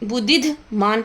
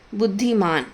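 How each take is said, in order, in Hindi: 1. i स्वर के बाद एक अतिरिक्त dh ध्वनि आती है। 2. i स्वर के बाद कोई अतिरिक्त ध्वनि नहीं आती। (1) "ये बुद्धिध मान पढ़ा जा रहा है" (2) "हलंत के एकदम बाद वाले वर्ड पे मात्रा लगानी है"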